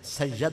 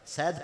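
First: An a vowel follows the y sound. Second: No vowel follows the y sound. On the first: The speaker calls it wrong. "इसे या की जबर के साथ पढ़ना गलत है" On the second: The speaker calls it right. "इसे सकता इस पे जायज है"

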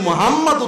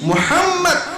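First: The name is said with Bengali-style sounds. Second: The name is said with Arabic-style sounds. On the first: The name comes to mean one without light. The speaker calls it wrong. "এই হাদে কেউ যদি মুহাম্মদ উচ্চারণ করে" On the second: The name means praiseworthy. The speaker calls it right. "অথচ শব্দটা কি মুহাম্মদ"

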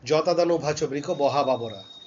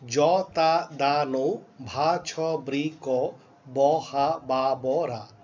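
First: The syllables are recited at a faster pace. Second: The syllables are recited at a normal pace. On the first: "এইটাই আমি একটু তাড়াতাড়ি বলি" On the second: "আবার বলি"

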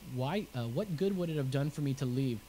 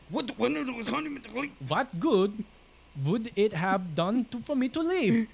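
First: It is read in the speaker's ordinary accent. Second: It is read in a put-on foreign accent.

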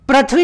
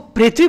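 First: The first syllable sounds like 'pra'. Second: The first syllable sounds like 'pri'. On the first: The speaker calls it wrong. "पृथ्वी नहीं बोलते हैं" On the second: The speaker calls it right. "इसको पृथ्वी बोलते हैं"

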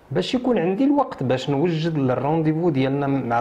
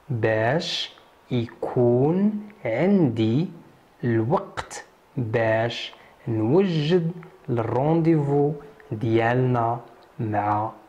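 First: The sentence is spoken at a normal pace. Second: The sentence is spoken slowly and carefully.

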